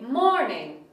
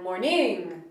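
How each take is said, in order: First: The stress is on the first syllable. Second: The stress is on the second syllable. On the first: The speaker calls it right. "The first syllable is longer and stronger than the second" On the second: The speaker calls it wrong. "That just sounds silly"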